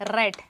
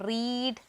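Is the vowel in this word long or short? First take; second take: short; long. First: The vowel is short, sounding like 'red'. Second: The vowel is long, sounding like 'reed'. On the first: It is the past participle form. "പ്രൊനൗൺസിയേഷനിൽ മാത്രമേ മാറ്റമുള്ളൂ" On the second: It is the present (base) form. "റീഡിൻ്റെ അപ്പോൾ past tense ഏതാണ്?"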